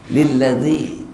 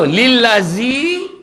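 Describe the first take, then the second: First: The consonant is a dh sound. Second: The consonant is a z sound. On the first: The speaker calls it right. "Dia zal" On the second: The speaker calls it wrong. "Kalau lillazi zai, tak betul"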